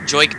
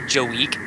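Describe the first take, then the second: First: The name is said as Joik. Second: The name is said as Joe Week. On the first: The speaker calls it right. "It's Joik" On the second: The speaker calls it wrong. "did you just call Joik Bell Joe Week?"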